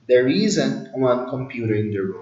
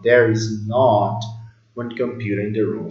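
First: The negative is contracted to isn't. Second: The negative is said in full, is not. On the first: Ordinary everyday statement. "Na fala corrida. Na fala natural do dia a dia" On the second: The speaker is insisting on the point. "usar o there is not para dar ênfase"

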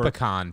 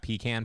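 First: The first syllable does not sound like 'pee'. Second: The first syllable sounds like 'pee'. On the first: The speaker calls it right. "I'm a pecan person" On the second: The speaker calls it wrong. "pecan makes it sound like you're peeing in a can"

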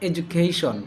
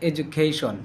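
Both takes have the same delivery.

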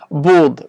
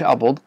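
First: The word begins directly with a consonant. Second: The word begins with an added vowel. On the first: The speaker calls it right. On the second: The speaker calls it wrong.

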